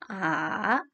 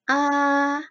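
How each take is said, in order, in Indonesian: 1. Nada turun lalu naik. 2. Vokal membawa nada pertama. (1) "nada ketiga, kita turun lalu naik" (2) "dari nada satu sampai empat"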